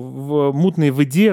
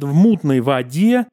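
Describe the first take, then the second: First: The unstressed vowel sounds obscure, not like a. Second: The unstressed vowel sounds like a clear a. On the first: This is the newer pronunciation of the future. "а у него" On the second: This is the traditional literary pronunciation. "это должно быть А-образный звук"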